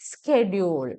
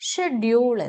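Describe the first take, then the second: First: It is said with an American pronunciation. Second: It is said with a British pronunciation. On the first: "അത് American pronunciation ആണ്" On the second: "U K pronunciation, that is the British pronunciation"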